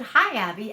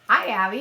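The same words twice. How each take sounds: First: Said in the usual way. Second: Lightly voiced parrot greeting, louder; imitating pet parrot. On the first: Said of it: "I came home and I said". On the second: Green cheek copying its owner's greeting, lightly imitated parrot. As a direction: mimic a talking bird, pushed louder. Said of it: "And he said".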